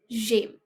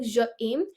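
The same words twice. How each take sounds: First: "j'aime" run together as one syllable; joined sounds. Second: "je aime" as two separate words; unjoined vowels. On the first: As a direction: join the zh straight onto "aime". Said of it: "we join the voice of zh and aim". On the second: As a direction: keep a break between "je" and "aime". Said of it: "it won't be like". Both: Shown as a demonstration.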